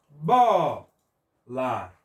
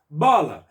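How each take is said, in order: First: Bola, split into a long BO, then la; "Bola" pulled apart, BO held and strong; syllable by syllable. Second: Bola, loud on the first syllable; a loud model "Bola", stressed on BO. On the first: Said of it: "O bó foi com maior intensidade". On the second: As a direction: punch the Bo of "Bola", let la drop. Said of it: "qual que nós pronunciamos com maior força". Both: Shown as a demonstration.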